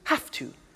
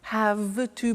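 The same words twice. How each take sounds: First: The word 'have' ends with an F sound. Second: The word 'have' ends with a V sound. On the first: "Notice I don't say V, I say F" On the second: "Have to becomes in pronunciation"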